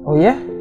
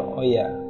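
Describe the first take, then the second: First: It sounds amazed and incredulous. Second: It sounds calm, understanding and accepting. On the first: The listener wonders how anyone thought of that. "kok bisa sih lu kepikiran gitu?" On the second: The listener understands and accepts it. "ada yang memaklumi gitu"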